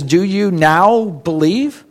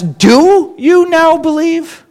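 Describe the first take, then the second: First: Slow question with "now" drawn out and weighted; stress on NOW. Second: High, slow, doubting question led by a stretched "Do"; stress on DO. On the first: Jesus questioning his disciples, stress on "now". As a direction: lean on "now", slowly, asking if belief has come at last. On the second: Jesus doubting his disciples' belief, stress on "Do". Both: Shown as a demonstration. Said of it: "what emphasis does Jesus have".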